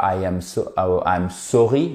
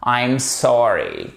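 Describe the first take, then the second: First: "sorry" with pursed French O, pitched low; French-style SORRY. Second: Slow "sorry" with open AH-like vowel; open English SORRY. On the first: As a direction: say "sorry" from the tip of the lips. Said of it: "c'est pas avec le bout de la bouche". ("sorry" à la française, du bout des lèvres) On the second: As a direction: stretch "sorry", mouth open, falling. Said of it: "non, c'est pas avec le bout de la bouche". ("sorry" lent, bouche bien ouverte) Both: Shown as a demonstration.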